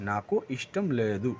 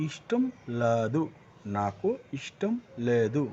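First: নাকু ইষ্টম লেদু slow, syllables spaced out; slow Telugu demo. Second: নাকু ইষ্টম লেদু at half speed, each syllable clear; slow teaching delivery of নাকু ইষ্টম লেদু; slow Telugu demo. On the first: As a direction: repeat ইষ্টম লেদু slowly. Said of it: "কী আসবে". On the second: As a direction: dictate ইষ্টম লেদু slowly. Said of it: "তো কী আসবে". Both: Shown as a demonstration.

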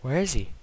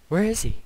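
First: Said in the usual way. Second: Higher, panicky question; scared. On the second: Real, not acted. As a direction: ask it with sudden panic. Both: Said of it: "I'm legitimately scared".

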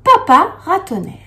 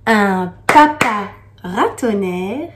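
First: "papa ratonnerre" said higher and louder, punching "papa"; bright loud "papa ratonnerre" for the class; emphatic demo. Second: "papa ratonnerre" read slowly with a lift on "papa"; slow recited "papa ratonnerre"; slow poem reading. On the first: Shown as a demonstration. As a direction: call out "papa ratonnerre" as the model answer. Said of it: "on dit". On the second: Acted. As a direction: let "Un papa ratonnerre," unfold slowly like verse.

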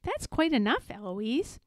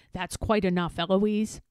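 First: Mock the reprimand, name lilting up; mimicking the tutor. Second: Firm, with a falling end; Philip. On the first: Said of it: "And I say". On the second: Tutor reprimanding Eloise, firm and contained. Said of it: "And he says". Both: A narrator's reading.

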